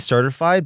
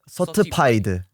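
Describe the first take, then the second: First: It is said with a native English accent. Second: It is said with a Korean accent. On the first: "Like we say certified" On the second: "but in Korean that'd be like certified"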